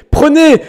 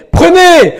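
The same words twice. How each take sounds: The two takes are said the same way.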